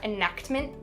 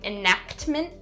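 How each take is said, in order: First: The k and t sounds are sharply over-enunciated. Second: The same.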